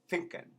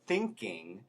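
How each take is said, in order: First: It begins with an F sound. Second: It begins with a TH sound.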